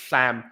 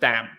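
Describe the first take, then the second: First: The first sound lets air out at the sides. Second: The first sound is a stop, not an S. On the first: "lateralized, meaning uh, the air isn't coming from the middle, it's coming from the sides" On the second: "That's stopping. That's you stop the S"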